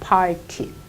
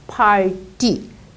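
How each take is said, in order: First: The middle consonant is a hard t sound. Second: The middle consonant is a soft d sound. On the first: The speaker calls it wrong. "우리 한국 분들은 팔티 이렇게 합니다" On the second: The speaker calls it right. "팔티가 아니고 팔디. 디귿 소리가 이렇게 나는 거죠"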